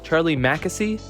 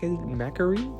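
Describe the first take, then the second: First: The middle consonant is an S sound. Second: The middle consonant is an R sound. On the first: The speaker calls it right. "That's an S, not an R" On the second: The speaker calls it wrong. "not an R"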